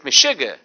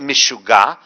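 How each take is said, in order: First: It is said with an old Polish accent. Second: It is said with an Israeli accent.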